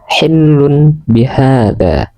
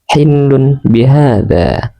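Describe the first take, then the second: No difference in how they are said.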